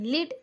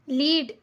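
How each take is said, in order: First: The vowel is short and clipped. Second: The vowel is long and drawn out. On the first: The speaker calls it right. "ऐसे पढ़ रहे हैं" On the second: The speaker calls it wrong. "ऐसे नहीं पढ़ रहे हैं"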